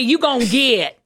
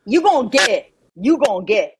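First: "get" drawn into two Southern syllables; Southern pronunciation. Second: Learner's drawled "get"; copied Southern pronunciation. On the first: Southerner correcting her learner, drawled "get". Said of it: "Not get". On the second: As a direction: echo the Southern glide in "get". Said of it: "There you go". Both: Shown as a demonstration.

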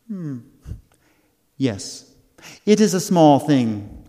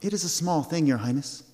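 First: Lightly voiced fairy queen; a hint of an airy fairy; tiny tinkling fairy voice. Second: Said in the usual way. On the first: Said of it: "said the fairy queen".

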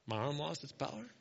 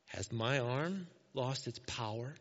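First: Low, soft deadpan question; God, mock incredulous. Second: Low, slow, measured rhetorical question; the Lord's reply. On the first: God teasing Moses over his doubt, quiet mock incredulity. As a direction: echo the doubt quietly in disbelief. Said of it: "I love how God's like". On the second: Acted. The Lord answering Moses's doubt, low measured challenge. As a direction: ask it slowly with quiet authority. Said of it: "Then the Lord said to Moses".

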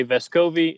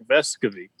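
First: "Vescovi" with the stress on the middle syllable, ves-KO-vi; American pronunciation. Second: "Vescovi" stressed on the first syllable, VES-co-vi; Uruguayan pronunciation. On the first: Explaining how Americans say the player's name, with the stress on KO. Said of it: "say Vescovi". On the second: Giving the family's name as said in Uruguay, with VES stressed. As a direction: put the weight on VES in "Vescovi". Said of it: "The emphasis on the first part of the word". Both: Shown as a demonstration.

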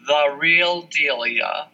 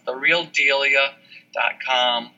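First: Spelling out slowly. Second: "the real delia" said slowly, word by word, for the listener to note; careful, measured dictation; slow and clear. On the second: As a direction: slowly dictate it like a web address. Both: Shown as a demonstration. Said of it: "just the way it sounds".

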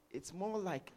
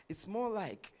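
Both takes have the same delivery.

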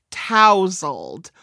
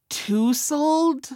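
First: TOUSLED with an "ow" vowel and a z sound; correct pronunciation. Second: TOUSLED wrongly said with "oo" and a hissed s; mistaken pronunciation. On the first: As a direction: say TOUSLED as TOW-zuld, rhyming with arousal. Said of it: "I had trouble pronouncing". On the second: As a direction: say TOUSLED as TOO-suld, higher, like a question. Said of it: "which I always thought was". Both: Shown as a demonstration.

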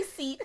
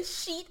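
First: "seat" with a clear s sound; "seat" said properly with s; correct pronunciation. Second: "sheet" with a sh sound; "sheet" said with sh for seat; wrong pronunciation. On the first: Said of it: "I'm gonna say seat". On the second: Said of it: "I'm not gonna say sheet". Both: Shown as a demonstration.

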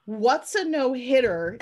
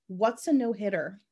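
First: "What's a no-hitter" slow and rising, a little louder; disbelieving repeat. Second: Said in the usual way. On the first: Shown as a demonstration. Host repeating the movie line, slow and rising. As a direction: lean on the disbelief. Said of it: "repeat with disbelief". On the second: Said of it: "first quote of line".

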